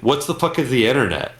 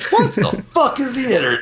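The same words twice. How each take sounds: First: It is said in a flat monotone. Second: It is said with lively, impersonating inflection. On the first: It is just a quick shared reference. "We just say it monotone" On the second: It is a real attempt at an impression. "we don't do it like"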